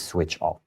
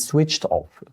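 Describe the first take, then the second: First: "switched off" said as "switch off"; dropped -ed ending. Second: "switched off" with a T ending on "switched"; correct final -ed. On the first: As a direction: drop the final T sound of "switched". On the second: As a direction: sound the -ed in "switched" as T. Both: Shown as a demonstration. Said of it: "we don't say he is switched off".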